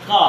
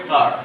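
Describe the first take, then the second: First: Car with no R, said কা; British কা, the final R dropped; British pronunciation. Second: Car with the R sounded, said কার; American কার, R rolled in at the end; American pronunciation. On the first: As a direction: say কা the British way, no R sound at the end. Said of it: "এটা British উচ্চারণে কা". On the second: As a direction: say কার the American way, R clearly voiced. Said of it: "কিন্তু American উচ্চারণ করতে গেলে কার". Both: Shown as a demonstration.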